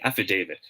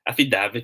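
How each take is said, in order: First: "affidavit" with DA said as "day"; long A in affidavit. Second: "affidavit" with DA as in "dad"; local short A. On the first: Teacher repeats the right answer, long-A affidavit. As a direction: model "affidavit" as af-fi-DAY-vit, softer. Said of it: "long A". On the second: Teacher shows how locals say it, short-A affidavit. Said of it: "sabi natin affidavit of loss". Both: Shown as a demonstration.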